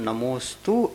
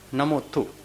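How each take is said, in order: First: The middle consonant is a full 'st' cluster. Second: The middle consonant is a simple 'th' sound. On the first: An adult with full teeth and tongue control says it. "प्रौढ़ता आने के बाद ही हम नमोस्तु ऐसा उच्चारण कर सकते हैं" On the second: A small child says it. "वो क्या बोलता है? नमोथु"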